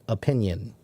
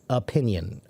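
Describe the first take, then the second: No difference in how they are said.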